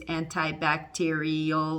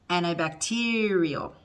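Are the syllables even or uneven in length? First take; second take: even; uneven. First: Every syllable gets the same length. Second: The stressed syllable is long, others are short. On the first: The speaker calls it wrong. "that's not English. We don't do that" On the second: The speaker calls it right. "Some are short, some are long. The one that's really long is the one that's stressed"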